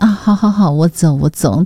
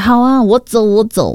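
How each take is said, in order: First: It sounds gentle and warm. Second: It sounds impulsive and angry.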